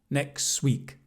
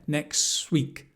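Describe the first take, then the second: No difference in how they are said.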